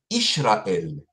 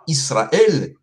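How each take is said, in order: First: The consonant after the first vowel is sh. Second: The consonant after the first vowel is s. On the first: This is how the Samaritans say it. "ils disent Ishraël" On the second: This is how Judeans and Israelis say it. "ils ne disent pas Israël"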